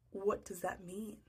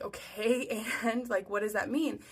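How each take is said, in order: First: Slow, hushed bewilderment; baffled. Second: Mildly exasperated follow-up question; insistent asking. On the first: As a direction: ask slowly and softly, utterly lost. Baffled reply to the cryptic nurse. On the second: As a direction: press him for an explanation. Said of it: "And I keep asking him". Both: Retold or imitated.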